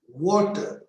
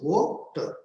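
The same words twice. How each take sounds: First: Said in the usual way. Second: "Water" broken as wa-ter; split in two syllables. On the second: Shown as a demonstration. Teacher showing two syllables to learners, broken in two. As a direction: say "Water" as two separate beats. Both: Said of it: "has two syllables".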